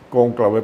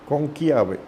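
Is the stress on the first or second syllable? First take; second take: first; second. First: The stress is on the first syllable. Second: The stress is on the second syllable. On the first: This is the Spanish form of the word. "en español se le pone el acento en la O" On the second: This is the Italian form of the word. "Conclave en italiano"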